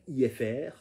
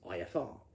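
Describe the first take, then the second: First: It is said with a French accent. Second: It is said with a standard English accent. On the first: The speaker calls it wrong. "when a French pilot is trying to say I F R" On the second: The speaker calls it right. "what they want to say is I F R"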